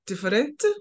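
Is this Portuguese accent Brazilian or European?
European. It is said with a European Portuguese accent. "in Portugal is diferente"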